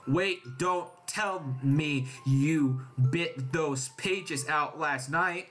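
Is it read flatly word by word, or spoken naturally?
flatly. It is read flatly, word by word.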